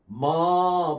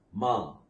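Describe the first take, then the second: First: மா with the vowel dragged out too long. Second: மா kept short, falling away; short vowel. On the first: Teacher showing students how not to say மா, long vowel. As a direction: stretch மா into a long aa. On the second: Teacher showing students the correct மா, short vowel. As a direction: say மா briefly, without dragging the aa. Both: Shown as a demonstration. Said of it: "அப்படின்னு சொல்லி உச்சரிக்க கூடாது".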